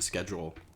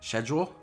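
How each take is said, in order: First: It is said with an American pronunciation. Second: It is said with a British pronunciation.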